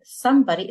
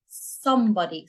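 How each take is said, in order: First: Said in the usual way. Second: "somebody" with a heavy, dark opening syllable; over-emphasise the first sound of "somebody"; emphatic s. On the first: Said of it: "you're not saying somebody". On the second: Shown as a demonstration. Teacher models the Arabic sound through English, emphatic s. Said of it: "make that sound even more emphatic".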